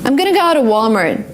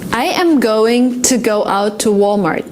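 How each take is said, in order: First: The words are reduced and run smoothly together. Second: Each word is said carefully and separately.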